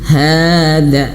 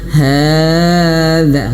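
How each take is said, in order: First: The long vowel is held for two beats only. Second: The long vowel is stretched out far too long. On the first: The speaker calls it right. "dua harokat itu satu ayunan" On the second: The speaker calls it wrong. "Jangan hada kepanjangan ya"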